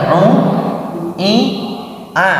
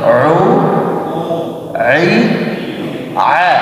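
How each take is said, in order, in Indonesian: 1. Bunyinya bergema melalui hidung. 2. Bunyinya jelas, tidak ada resonansi sengau. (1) "suaranya masih sengau" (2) "tidak berdengung ke hidung"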